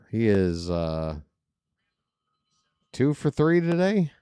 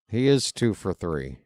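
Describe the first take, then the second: First: The voice rises at the end like a question. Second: The voice falls at the end like a statement.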